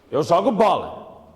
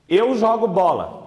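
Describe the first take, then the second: First: It is an exclamation, said forcefully and commandingly. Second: It is a plain statement with a flat ending.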